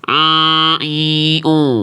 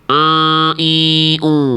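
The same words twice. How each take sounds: Both takes have the same delivery.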